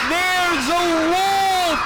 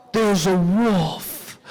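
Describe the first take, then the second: First: High, drawn-out warning yell; sustained high shout to summon help; screaming alarm. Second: Low, slow realisation of danger; understated horrified discovery; stunned dread. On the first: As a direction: holler it slowly from a mountaintop. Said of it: "he screams at the top of his lungs". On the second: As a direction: let it sink in slowly after a gasp. Boy discovers a real wolf. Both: Acted.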